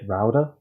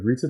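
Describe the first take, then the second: First: It is said with an American accent. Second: It is said with a British accent.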